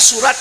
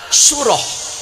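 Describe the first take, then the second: First: The word ends with a t sound. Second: The word ends with an h sound. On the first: The speaker calls it wrong. "apabila dibaca surat" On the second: The speaker calls it right. "yang benar adalah surah"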